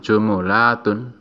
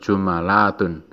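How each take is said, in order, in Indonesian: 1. Huruf m diikuti vokal u. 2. Huruf m diikuti vokal a. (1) "mimnya didomah" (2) "mimnya di fathah"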